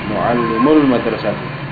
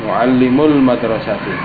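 The two takes are said the same way.

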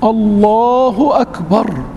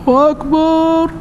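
First: The vowel after the b is kept short. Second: The vowel after the b is drawn out long. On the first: The speaker calls it right. "الباء عمرها ما تمد وليس فيها حتى ولو نص مد" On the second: The speaker calls it wrong. "بعض المؤذنين تسمعهم من بعيد"

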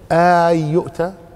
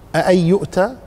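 First: The opening vowel is drawn out into a long vowel. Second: The opening has a second, softened glottal stop. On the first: "أو اعتبرها مد" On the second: "بتخفيف الهمزة الثانية"

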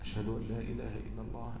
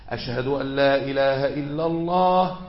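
First: It is said quietly, in a low voice. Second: It is said loudly, in a raised voice. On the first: It is said only for oneself and those nearby. "وفي سره بالراحة كده يسمع نفسه ومن قرب منه" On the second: It is proclaimed aloud to everyone. "وبعدين رفع صوته"

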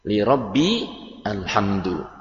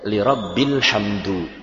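First: Rabbi and alhamdu are said as separate words. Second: Rabbi and alhamdu run together as rabbil hamdu.

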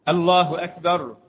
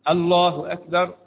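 No difference in how they are said.

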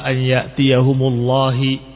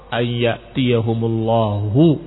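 First: The last word ends with an i vowel. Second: The last word ends with a u vowel. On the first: A hidden word makes the command the one who comes. The speaker calls it wrong. "maka niscaya akan dibaca lafdul jalalah dengan kasrah" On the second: God himself is the one who comes. The speaker calls it right. "dengan dhammah"

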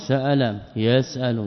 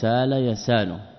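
First: A glottal stop is clearly pronounced in the middle. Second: The glottal stop is dropped, leaving a long vowel.

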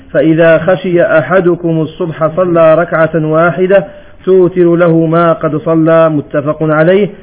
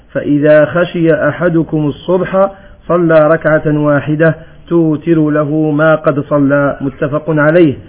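Both takes have the same delivery.

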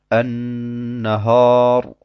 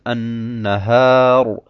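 First: The long 'a' sounds dark and heavy. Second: The long 'a' sounds bright and light. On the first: The speaker calls it wrong. "ein Alif, das hell sein muss, dunkel spricht" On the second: The speaker calls it right. "Es muss aber richtig heißen"

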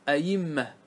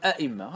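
First: The second hamza is softened to a y sound. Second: The second hamza is a full glottal stop. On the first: "قلبوا الهمزة الثانية إلى ياء" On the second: "تأتي بهمزتين تقول أئمة"

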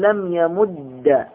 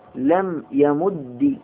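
First: The doubled final d ends with an a vowel. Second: The doubled final d ends with an i vowel.

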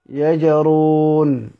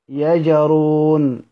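Both takes have the same delivery.

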